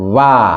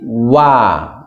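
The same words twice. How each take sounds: First: The lips stay plain without rounding before 'a'. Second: The lips are rounded before opening into 'a'. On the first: The speaker calls it wrong. "bukan wa" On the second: The speaker calls it right. "sebelum merenggang itu harus mencucu dulu"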